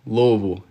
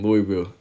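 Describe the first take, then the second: First: Louisville slurred into LOH-vul, two syllables; Louisville with the middle swallowed, LOH-vul; local pronunciation. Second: Louisville said LOO-ee-vill, every syllable sounded; full, by-the-book LOO-ee-vill for Louisville; outsider's pronunciation. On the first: Shown as a demonstration. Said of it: "I just read that like an outsider". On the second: Real, not acted. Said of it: "read that in the most federal way possible".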